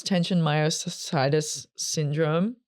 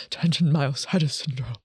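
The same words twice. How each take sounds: First: Said in the usual way. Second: A nervous laugh through the words; self-conscious giggle on the medical name. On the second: Real, not acted. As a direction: laugh at stumbling over the term. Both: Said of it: "so nervous".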